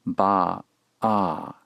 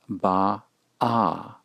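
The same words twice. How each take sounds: First: "Ba-ah." with the throat closing sharply before the second syllable; glottal Ba-ah. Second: "Ba-ah." stretched slowly, two syllables split by a throat catch. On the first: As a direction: hit the catch before the second "ah" in "Ba-ah.". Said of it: "the second syllable begins with a constriction". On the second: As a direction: spell out "Ba-ah." slowly with a glottal stop between the syllables. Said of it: "This is pronounced Ba-ah". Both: Shown as a demonstration.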